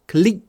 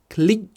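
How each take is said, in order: No difference in how they are said.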